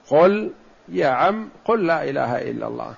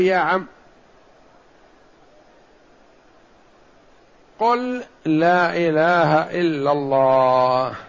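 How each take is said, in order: First: Gentle repeated plea. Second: Slow, tender coaxing of a dying uncle; gentle plea. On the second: Prophet gently urging dying uncle to say it, slow and tender. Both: Retold or imitated. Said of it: "تلطفا به".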